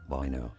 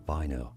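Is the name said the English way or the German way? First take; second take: German way; German way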